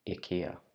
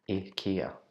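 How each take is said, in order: The two takes are said the same way.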